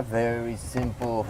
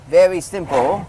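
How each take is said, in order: First: Said in the usual way. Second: "very simple" repeated higher and louder; emphatic repeat. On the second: Shown as a demonstration. Reviewer repeats the praise with louder emphasis. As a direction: punch "very" on the second "very simple".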